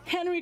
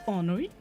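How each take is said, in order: First: The name is said with an English accent. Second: The name is said with a French accent. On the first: The speaker calls it wrong. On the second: The speaker calls it right. "let me get a French accent"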